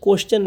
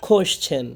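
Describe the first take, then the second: First: Everyday কোশ্চেন, no puff on the k; wrong pronunciation. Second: Careful কোশ্চেন opening on খ; correct pronunciation. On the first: Teacher warns students off it, wrong pronunciation. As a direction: say কোশ্চেন with an unaspirated k. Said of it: "কোশ্চেন না কিন্তু". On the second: Teacher shows the kh sound, correct pronunciation. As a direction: say কোশ্চেন as "khoshchen", aspirated k. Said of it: "উচ্চারণটা খ, খ". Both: Shown as a demonstration.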